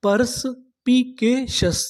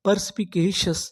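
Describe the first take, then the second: First: Perspicacious drawn out very slowly, raised; slow full word. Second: Said in the usual way. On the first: Shown as a demonstration. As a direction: stretch perspicacious out for students. (धीरे-धीरे पूरा शब्द) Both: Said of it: "तो पूरी meaning क्या बनी?".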